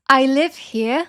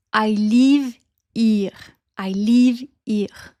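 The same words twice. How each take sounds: First: Said in the usual way. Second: French-accented LIVE as long, flat "leev"; slow French accent, HERE as "eer" without the H. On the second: Shown as a demonstration. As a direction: stretch the vowels like a French speaker. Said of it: "les voyelles sont un peu plus longues".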